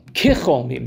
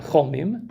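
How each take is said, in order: First: "Kicholmim" with the prefix ki clearly sounded, lower and deliberate; correct reading. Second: "cholmim" said without the ki prefix, as the rejected reading; contrast form. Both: Shown as a demonstration. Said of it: "not cholmim".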